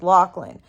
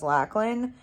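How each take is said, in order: First: The first syllable rhymes with 'rock'. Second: The first syllable rhymes with 'back'. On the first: This is how the name is said in Australia. The speaker calls it right. "the way that you would pronounce L A C H would be lock" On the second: This is how Americans read the usual spelling. The speaker calls it wrong. "because of how Americans pronounce a, the A sound"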